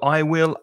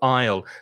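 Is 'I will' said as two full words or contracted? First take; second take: full; contracted. First: Both words are said in full, unreduced. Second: The two words merge into one short syllable. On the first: The speaker calls it wrong. "not use the full uh, form of the auxiliary verb" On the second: The speaker calls it right. "contractions that will make you sound more fluent"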